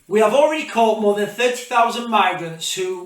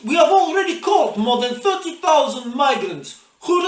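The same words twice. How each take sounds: First: It is said in the speaker's own accent. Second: It is said in a put-on Russian accent.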